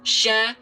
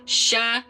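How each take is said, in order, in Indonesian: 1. Bunyi sh dibuat dengan bibir membulat yang bergerak. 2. Bunyi sh dibuat dengan bibir membulat yang bergerak.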